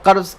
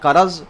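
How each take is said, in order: First: The word is said as one syllable. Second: An extra vowel splits it into two syllables. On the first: The speaker calls it right. "कर्ज़ के बजाय" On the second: The speaker calls it wrong. "हरकत व सुकून की गलती"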